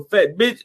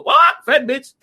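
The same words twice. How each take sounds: First: Said in the usual way. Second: High squawk, then the echoed insult; imitated talking bird. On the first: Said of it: "every time you hear Red Fox go". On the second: Bird echoes Red Fox's insult, squawking imitation. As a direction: squawk it like a parrot, pitched up. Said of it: "and the bird go".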